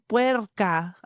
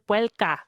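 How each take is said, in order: First: It is said with an R sound. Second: It is said with an L sound. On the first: "Instead of saying" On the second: "with an L"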